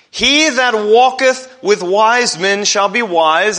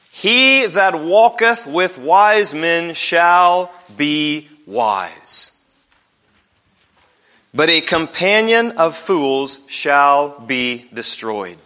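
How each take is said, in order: First: Louder, higher, slow and driven home; preacher hammering the verse home, louder; emphatic repeat. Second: Slow, measured reading from Proverbs; slow scripture reading. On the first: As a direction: proclaim it back to the congregation. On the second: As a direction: read each word slowly and deliberately. Reading the verse aloud. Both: Acted.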